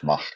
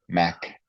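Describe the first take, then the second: First: The name is said with a Dutch pronunciation. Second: The name is said with an English pronunciation. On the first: The speaker calls it wrong. "or my Dutch Mach" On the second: The speaker calls it right. "the proper pronunciation of his name"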